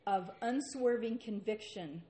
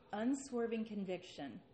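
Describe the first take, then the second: First: Unswerving punched with weight and volume; preacher's firm emphasis on unswerving; emphatic stress. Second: Said in the usual way. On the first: Shown as a demonstration. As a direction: lean hard into unswerving.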